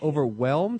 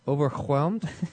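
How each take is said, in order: First: The h sound is left out. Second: The h sound is strongly breathed out. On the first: "as if there was no H?" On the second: "Why are you putting so much emphasis on the H?"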